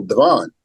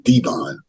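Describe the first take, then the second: First: Devon as duh-VON; original name pronunciation. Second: Devon as DEE-von; new name pronunciation. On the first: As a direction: say Devon with a weak first syllable, duh-VON. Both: Retold or imitated. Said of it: "How about Devon?".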